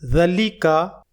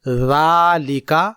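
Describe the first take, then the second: First: The first vowel is short. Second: The first vowel is long. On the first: The speaker calls it wrong. "हम इसे ज़लिका नहीं पढ़ेंगे" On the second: The speaker calls it right. "ज़ाल की आवाज को एक अलिफ के बराबर लंबी करके"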